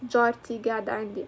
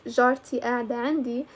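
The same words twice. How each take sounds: First: جارتي قاعدة عندي with g opening قاعدة; own-accent g in قاعدة; own dialect pronunciation. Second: جارتي قاعدة عندي with a glottal stop opening قاعدة; another dialect's pronunciation. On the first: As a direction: say قاعدة with a hard g, as "gada". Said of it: "know that I read it". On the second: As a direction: say قاعدة as "ada", without the q. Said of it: "if your accent is". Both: Shown as a demonstration.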